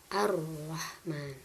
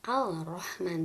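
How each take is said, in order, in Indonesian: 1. Bunyi l menyatu menjadi bunyi r yang digandakan. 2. Bunyi l yang jelas terdengar sebelum r. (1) "tapi langsung ar-rahman" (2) "tidak dibaca al-rahman"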